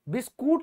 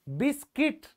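First: The second syllable sounds like 'koot'. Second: The second syllable sounds like 'kit'. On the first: The speaker calls it wrong. "बिस्कूट नहीं होता" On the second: The speaker calls it right. "तो बिस्किट होता है"

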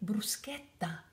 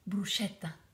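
First: The middle consonant sounds like sk. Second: The middle consonant sounds like sh. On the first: The speaker calls it right. "This S, C, H, the H, is make a sk sound" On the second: The speaker calls it wrong. "It's not a sh"

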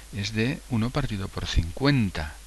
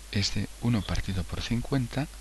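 The two takes are said the same way.

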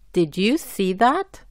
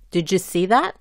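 First: Each word is said clearly and separately. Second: The words run together and link. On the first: "la pronuncio bien y claramente" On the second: "juntando o enlazando las letras"

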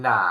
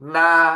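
First: It is said with the third tone. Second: It is said with the first tone. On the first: "เสียงที่ 3" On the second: "เสียงที่ 1"

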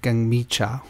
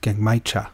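First: The middle syllable is said as 'mi'. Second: The middle syllable is said as 'mai'.

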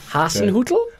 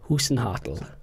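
First: The a and u vowels are in place. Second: The a and u vowel sounds are swapped. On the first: The speaker calls it right. "Hasenhüttl, that's it" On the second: The speaker calls it wrong. "You've got your U and your A's fixed up for the wrong way"

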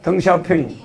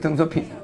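First: The name is read the Chinese way, ending 'ping'. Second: The name is read with Korean syllables, ending 'pyeong'. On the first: "이 발음할 땐 핑이라고 그래" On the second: "등서평이 있었죠?"

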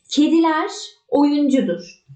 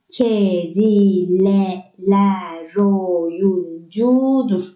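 First: The two words are said separately. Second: The final r joins the next vowel.

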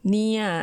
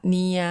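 First: It is said with the mai ek tone. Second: It is said with the plain, unmarked tone. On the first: "เนียเอกเนีย" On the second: "ผันเสียงว่า"

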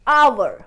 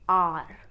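First: It sounds like 'ower' with a glide. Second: It sounds like one syllable 'are'. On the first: The speaker calls it right. "The correct correct pronunciation is hour" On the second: The speaker calls it wrong. "R is a wrong pronunciation"

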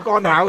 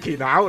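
First: The first syllable is read as gon. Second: The first syllable is read as kin. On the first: The speaker calls it wrong. "你都会读错干巧嘅" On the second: The speaker calls it right. "即使你知道佢叫乾巧"

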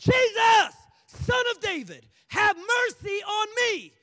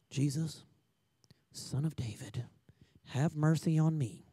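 First: It is shouted loudly. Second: It is said quietly, without shouting.

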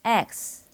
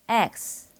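First: It is said English-style, with the mouth wide open. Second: The same.

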